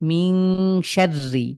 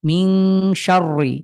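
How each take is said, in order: First: The r is pronounced light and thin. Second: The r is pronounced heavy and thick. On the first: The speaker calls it right. "পাতলা" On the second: The speaker calls it wrong. "যদি পড়ি তাহলে মোটা শোনাবে"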